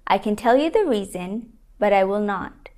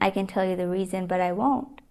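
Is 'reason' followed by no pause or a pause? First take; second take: pause; no pause. First: The voice pauses after 'reason'. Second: The voice runs on after 'reason'. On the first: "The comma over here indicates a pause" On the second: "Saying this without a pause, sounds a little strange, doesn't it?"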